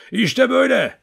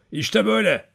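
First: High, loud wolf howl. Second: Said in the usual way. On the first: A narrator's reading. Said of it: "kurt gibi ulumaya başladı". (kurt gibi uluyarak)

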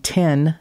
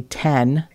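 First: Said in the usual way. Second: "ten" with a short e in place of i; accent demo, "ten" with an eh vowel; tin said as ten. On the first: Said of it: "T I N, is actually ten". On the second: Shown as a demonstration. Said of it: "is actually ten".

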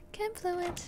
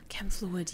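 First: Much higher, soft, put-on squeak; playful high mock voice; squeaky silly voice. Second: Said in the usual way. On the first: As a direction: chirp the item name in a cartoon voice. Repeats item name in odd voice.

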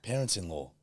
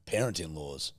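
First: Correcting, stress the ending on "Parents-in-law."; correct form. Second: "Parent-in-laws." with s on law, echoing the error; mocking the mistake "Parent-in-laws."; wrong form. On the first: Friend corrects the plural, saying "Parents-in-law." carefully. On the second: Friend echoes the wrong plural "Parent-in-laws." teasingly. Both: Shown as a demonstration.

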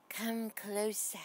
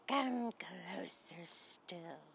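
First: Slow unvoiced spider whisper on "Come closer"; spooky whisper. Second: Slow, drawn-out, softer voiced "come closer still"; creepy spider voice. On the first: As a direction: lure them in with a breathy hiss. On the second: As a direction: coax like a spider luring prey. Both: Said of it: "She's saying".

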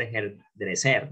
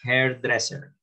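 First: "hairdresser" misread as her-dre-SER; wrong final stress. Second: "Hairdresser" as HAIR-dress-er, ending unstressed; correct early stress. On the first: Teacher shows students the mistake, "hairdresser" stressed on the last syllable. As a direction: say "hairdresser" Spanish-style, stress thrown onto final SER. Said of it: "No va a ser". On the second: Teacher corrects students' accent, "Hairdresser" stressed away from the ending. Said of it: "miren los acentos". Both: Shown as a demonstration.

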